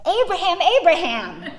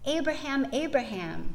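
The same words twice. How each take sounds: First: The name is called in an alarmed, urgent way. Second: The name is called in a calmer, plainer way. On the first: "Trying to shake Abraham out of his extremist stupor" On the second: "The angel says"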